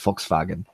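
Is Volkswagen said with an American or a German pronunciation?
German. The word is said with a German pronunciation. This is how Germans say it. "instead of"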